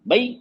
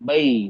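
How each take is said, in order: First: The vowel is clipped and said quickly. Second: The vowel is held for a medium length. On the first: The speaker calls it wrong. "जल्दी पढ़ दिया।" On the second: The speaker calls it right. "दरमियानी आवाज है।"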